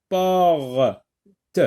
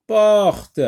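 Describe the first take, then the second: First: "porte" drawn out as por, pause, te; teacher sounding out "porte" in two parts; split into sounds. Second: Said in the usual way. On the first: Shown as a demonstration. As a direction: break "porte" before a separate final te. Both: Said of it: "dans la première syllabe".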